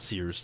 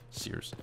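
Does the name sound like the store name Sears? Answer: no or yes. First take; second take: yes; no. First: It sounds like the store name Sears. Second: It does not sound like the store name. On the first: The speaker calls it wrong. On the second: The speaker calls it right.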